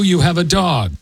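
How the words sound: The voice falls at the end, like a statement.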